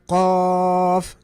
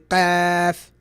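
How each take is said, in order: First: The first consonant sounds heavy and full. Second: The first consonant sounds light and thin. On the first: "instead of" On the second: "it would be"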